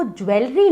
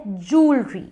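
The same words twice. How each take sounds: First: ज्वेलरी as "jwel-ree"; a "we" sound inside ज्वेलरी; wrong pronunciation. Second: जूलरी as "jool-ree"; long oo in जूलरी, two syllables; correct pronunciation. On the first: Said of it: "वो ज्वेलरी नहीं होता है". (ज्वेलरी में "ज्वे" बोलें) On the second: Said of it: "वो होता है जूलरी". (जूलरी को "जूल-री" बोलें) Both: Shown as a demonstration.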